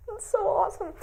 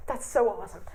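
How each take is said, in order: First: That's so awesome, squealed high; That's so awesome at the top of the voice; excited. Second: Said in the usual way. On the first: Real, not acted. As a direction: gush it out, thrilled. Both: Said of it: "repeated exclamation".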